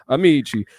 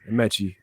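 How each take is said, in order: First: The name is said like the Italian word. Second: The name is said the Nigerian way. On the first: The speaker calls it wrong. "That's what they be saying" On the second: The speaker calls it right. "Amechi, Nigerian"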